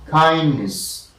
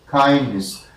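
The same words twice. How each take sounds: No difference in how they are said.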